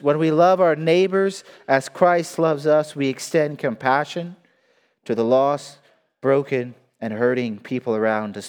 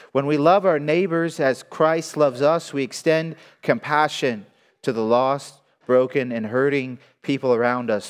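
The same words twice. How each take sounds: The two takes are said the same way.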